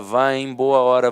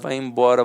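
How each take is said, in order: First: Each word is said separately and fully. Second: The words run together into one short word. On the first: "de tanto falar" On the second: "a gente sempre fala muito rápido"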